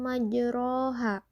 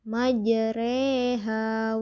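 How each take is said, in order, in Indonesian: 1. Vokal setelah huruf r terdengar seperti a. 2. Vokal setelah huruf r terdengar seperti e. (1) "ro itu berharokatnya fathah" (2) "kita condongkan ke kasroh. Jadi dibacanya majreha"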